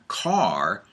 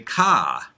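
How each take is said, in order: First: It is said in a general American accent. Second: It is said in a Northeastern US accent. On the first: "instead of saying car" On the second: "I come from the Northeast, and so instead of saying car, people where I live say ka"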